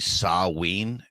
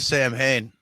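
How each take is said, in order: First: It is said as sah-ween, with no m or h. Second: It is said as sam-hane, with an audible h. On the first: This is the technically proper form. "the like proper pronunciation of that is actually Saween" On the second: This is the familiar popular form. "I came across the name Sam Hain from [name]'s band"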